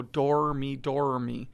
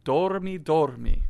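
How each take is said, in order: First: Dormi with a hard English R; English-style R. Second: Dormi with a lightly flipped Italian R. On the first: Teacher showing pupils what to avoid, English R in dormi. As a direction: say dormi with the R held like English "ar", no tongue flip. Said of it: "don't pronounce the R's like R". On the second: Teacher models it for pupils to echo, flipped R in dormi. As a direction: flip the tongue briefly on the R of dormi, louder. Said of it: "flip your tongue just a little bit". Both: Shown as a demonstration.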